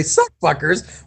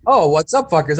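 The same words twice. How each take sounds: First: "Suck fuckers" said slowly with a clear s at the start; drawn out "Suck fuckers" with "suck" rising; misheard greeting. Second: Said in the usual way. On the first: Retold or imitated. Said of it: "I was gonna say, "Suck fuckers". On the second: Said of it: "I was gonna say".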